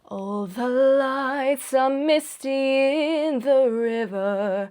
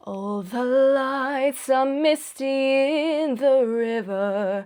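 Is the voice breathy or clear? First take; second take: breathy; breathy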